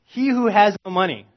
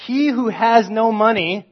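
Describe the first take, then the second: First: "He who has no money" repeated loud and high; emphatic repeat. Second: "He who has no money" read slow, loud and high; slow emphatic reading. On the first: Preacher repeats the verse for the listeners, emphatic. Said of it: "so follow me here". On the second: Preacher stresses the verse to the congregation, slow and loud. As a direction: land each word of "He who has no money" heavily. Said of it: "And then get this". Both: Shown as a demonstration.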